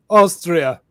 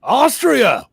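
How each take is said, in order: First: Lightly acted answer, a little louder; film impression. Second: High, loud mock-surprised echo; film impression. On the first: Answering where the accent is from, lightly acted impression. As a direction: give the film line with a falling tune. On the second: Echoing the country in a film quote, loud hammed-up impression. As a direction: blurt it back far higher and louder. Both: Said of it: "on Dumb and Dumber".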